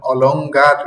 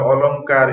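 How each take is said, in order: First: অলংকার with an added g, as olong-gar; wrong hard g. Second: Said in the usual way. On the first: Shown as a demonstration. Teacher asking if you'd say it so, অলংকার as olong-gar. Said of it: "এভাবে, এভাবে বলবেন?". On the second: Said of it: "অলংকার বলবো না".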